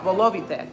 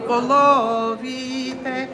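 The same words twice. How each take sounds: First: "volovite" said as normally spoken, falling; plain spoken. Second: Sung, 1. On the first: Leader shows how "volovite" is normally pronounced. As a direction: say "volovite" as in everyday speech. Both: Shown as a demonstration. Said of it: "how it's pronounced".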